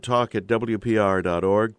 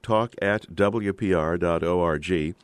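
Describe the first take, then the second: First: Said in the usual way. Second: Slow, letter by letter; spelled out slowly. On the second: Shown as a demonstration. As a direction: spell out O R G carefully.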